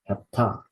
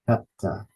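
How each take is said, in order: First: The stress is on the last syllable. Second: The stress is on the first syllable. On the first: The speaker calls it right. "the stress needs to be on the final syllable" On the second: The speaker calls it wrong.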